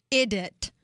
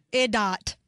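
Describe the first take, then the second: First: "Idiot" said correctly as eye-dee-it; the correct word "Idiot"; proper idiot. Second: "Idot" said as eye-dot, reading the typo; misspelt idot. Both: Shown as a demonstration.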